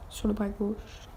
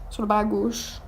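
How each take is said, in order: First: Répété doucement, ralenti; plus doux. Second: Said in the usual way. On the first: Shown as a demonstration. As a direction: reprendre tout bas pour se corriger. (confirmation à mi-voix) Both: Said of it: "Je me suis pas trompée".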